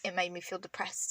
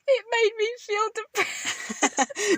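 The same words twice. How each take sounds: First: Said in the usual way. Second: High, drawn-out mock lament; mock whining. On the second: Mocking the confession of deleting TikTok, high and slow. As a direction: stretch it out in a high, hammed-up voice.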